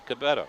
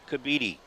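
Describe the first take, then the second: First: The middle vowel is short. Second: The middle vowel is long. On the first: The speaker calls it wrong. "don't say Cabetta" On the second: The speaker calls it right. "it's the long vowel"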